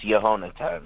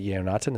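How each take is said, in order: First: Yehonatan with a clear h, yeh-HO-na-tan; corrected pronunciation. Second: Yeonatan with the h left out, as a question; tentative Yeonatan, starting YAY-oh; mispronounced name. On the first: Shown as a demonstration. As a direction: say Yehonatan with the stress on ho. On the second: Real, not acted. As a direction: say Yeonatan as YAY-oh-NAH-tan, checking it. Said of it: "is that correct?".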